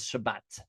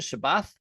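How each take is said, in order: First: The word ends with a t sound. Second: The word ends with a th sound. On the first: This is the modern Hebrew pronunciation. "and so we pronounce it as Shabbat" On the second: This is the older, historical pronunciation. "was probably the more historical pronunciation"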